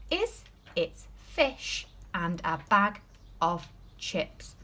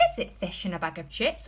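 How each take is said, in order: First: Slow reading. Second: Said in the usual way. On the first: Shown as a demonstration. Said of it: "Let's read that sentence again". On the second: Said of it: "Is it a yes or no answer?".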